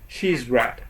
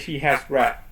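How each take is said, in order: First: The word has is shortened to s. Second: The word has is said in full. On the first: The speaker calls it right. "They say she's read" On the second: The speaker calls it wrong. "they don't say she has read"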